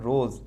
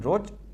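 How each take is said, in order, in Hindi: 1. शब्द 'z' की आवाज़ पर खत्म होता है। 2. शब्द 'j' की आवाज़ पर खत्म होता है। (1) "यहाँ सन रोज, रोज मतलब जीभ के बीच में से एयर पास होती है" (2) "वहाँ ज रहता तो ओनली फॉर ज रहता"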